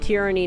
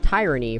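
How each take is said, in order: First: The first syllable sounds like 'tear', short vowel. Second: The first syllable sounds like 'tie', as in tyrant. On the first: The speaker calls it right. "I do say tyranny now because it's how it's supposed to be pronounced" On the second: The speaker calls it wrong. "I pronounced uh tyranny as tyranny for a very long time"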